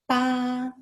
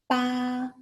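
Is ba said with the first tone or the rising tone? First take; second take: first tone; first tone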